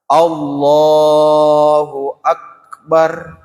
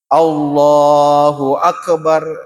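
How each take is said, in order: First: The k in akbar has no echoing bounce. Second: The k in akbar has an echoing bounce. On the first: The speaker calls it right. "tapi yang betul adalah Allahu akbar. Tidak bunyi ki" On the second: The speaker calls it wrong. "jangan dibaca Allahu akbar, bukan qalqalah"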